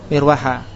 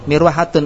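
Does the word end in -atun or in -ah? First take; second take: -ah; -atun. First: The word ends in a short -ah ending. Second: The word ends in a full -atun ending. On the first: This is the form used when pausing. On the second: This is the form used in connected speech.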